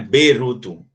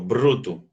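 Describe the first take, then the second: First: A vowel sound splits the B and R. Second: The B and R are said together. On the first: The speaker calls it wrong. "Não é beruto" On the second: The speaker calls it right. "esse B R eu falo bruto, junto"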